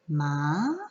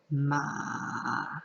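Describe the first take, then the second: First: The pitch rises like a question. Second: The pitch dips down then rises again. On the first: "is a rising tone" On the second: "Where you start high, you dip down, and then you bring the tone back up"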